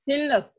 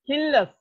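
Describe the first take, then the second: The two takes are said the same way.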